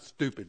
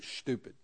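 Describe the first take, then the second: First: The word begins with a plain 'st' sound. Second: The word begins with a 'sht' sound. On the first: The speaker calls it wrong. "Not stupid" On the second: The speaker calls it right. "You got to get that S-C-H in there"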